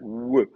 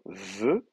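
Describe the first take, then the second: First: The consonant uses both lips together. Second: The consonant uses the lower lip against teeth. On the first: This is the ancient pronunciation. "c'était une bilabiale" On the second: This is the modern pronunciation. "une labio-dentale, avec la lèvre sur les dents"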